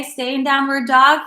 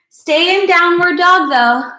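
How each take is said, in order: First: Said in the usual way. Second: Emphatic cue. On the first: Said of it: "cue repeated plainly". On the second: Real, not acted. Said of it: "repeats cue louder, slower".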